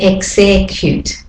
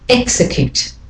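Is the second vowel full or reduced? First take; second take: full; reduced. First: The second vowel is full, not reduced. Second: The second vowel is reduced and weak. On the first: The speaker calls it wrong. "I don't say execute" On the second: The speaker calls it right. "the second E is the de-stressed vowel"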